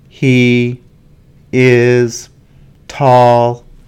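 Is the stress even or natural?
even. Every word gets the same stress. The speaker calls it wrong. "I will give you a list of words for a sentence, but not stressed in the right way"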